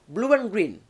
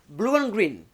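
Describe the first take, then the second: First: A 'w' glide links the two vowels. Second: The same.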